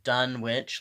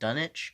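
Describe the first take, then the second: First: A w sound is heard in the middle. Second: No w sound is heard in the middle. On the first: "like it's spelled" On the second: "but I've also heard it pronounced"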